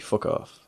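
It is said lightly and casually. It is friendly banter that causes no offence. "you'd just be like, okay"

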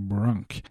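The name has an English pronunciation. "you say Brunk"

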